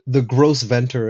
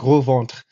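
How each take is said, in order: First: The name is said with an American pronunciation. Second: The name is said with a French pronunciation. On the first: "as probably the Americans would say it" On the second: "but it's pronounced Gros Ventre"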